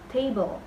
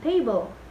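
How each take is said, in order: First: The stress is on the first syllable. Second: The stress is on the second syllable. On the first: The speaker calls it right. "tapi table" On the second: The speaker calls it wrong. "Bukan table"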